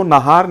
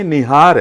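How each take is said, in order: First: नहार said with a short plain "na" first syllable; common wrong form. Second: निहार with a clear "ni" first syllable; correct Urdu form. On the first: Guest showing the host the wrong Urdu form नहार with plain "na". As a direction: say नहार the way people usually mispronounce it. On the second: Guest correcting the host with the proper Urdu निहार, "ni" first syllable. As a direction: say निहार carefully with "ni", not "na". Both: Shown as a demonstration. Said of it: "असल जो लफ्ज़ है वो नहार नहीं है".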